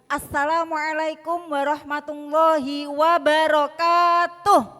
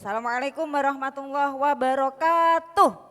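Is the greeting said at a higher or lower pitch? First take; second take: higher; lower. First: The greeting is said at a raised, higher pitch. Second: The greeting is said at a lower, plainer pitch. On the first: "yang kedua, agak saya tinggikan" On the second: "Tadi yang pertama, intonasinya seperti itu"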